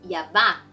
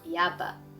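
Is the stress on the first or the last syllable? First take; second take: last; first. First: The stress is on the last syllable. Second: The stress is on the first syllable. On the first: The speaker calls it right. "It has the accent on the A at the end" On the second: The speaker calls it wrong. "not Yaba"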